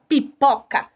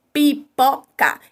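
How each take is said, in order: First: Said in the usual way. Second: "Pipoca" slowly in three separate beats; syllable by syllable. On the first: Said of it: "Exemplo, a palavra pipoca". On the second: Shown as a demonstration. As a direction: break up "Pipoca" as pi-po-ca, each sound clear. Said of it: "Eu tenho três fonemas".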